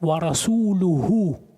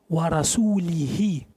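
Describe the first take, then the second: First: The word ends with the vowels u-hu. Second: The word ends with the vowels i-hi. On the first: The messenger also disowns the polytheists. The speaker calls it right. "на самом деле аят" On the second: God disowns the messenger too. The speaker calls it wrong. "а он читал"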